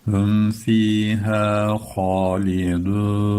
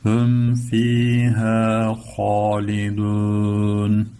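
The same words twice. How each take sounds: First: Slow sung chant; Quran recitation. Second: Very slow, fuller sung chant; Quran recitation. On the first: Teacher chanting the line for students, slow. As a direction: chant "Hum fiha halidun" slowly. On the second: Teacher repeats the chanted line, slower and fuller. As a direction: draw "Hum fiha halidun" out, fuller. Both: Shown as a demonstration.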